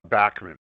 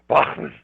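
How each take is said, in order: First: The name is said the Canadian way. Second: The name is said the German way. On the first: "In Canada, we grew up saying Bachman" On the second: "In Germany, they say Bachman"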